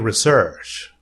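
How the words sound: It is said with a British pronunciation. "British people say research"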